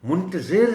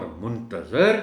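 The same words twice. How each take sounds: First: High, loud منتظر, ending in -zir; muntazir, the one waiting. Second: Slow منتظر, ending in -zar; muntazar, the one awaited. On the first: Teacher defines the one who waits, منتظر pitched up as muntazir. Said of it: "انتظار کرنے والا". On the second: Teacher defines the one awaited, منتظر drawn out as muntazar. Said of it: "جس کا انتظار کیا جا رہا ہو". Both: Shown as a demonstration.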